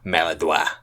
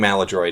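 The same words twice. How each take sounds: First: It is said with a French pronunciation. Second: It is said with an American pronunciation. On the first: This is how French speakers say it. The speaker calls it wrong. "usually like French people, French Canadians, you know, I've heard maladroit, uh, which I just I just don't think is right" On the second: This is the usual way people say it. The speaker calls it right. "I think maladroit is the common pronunciation"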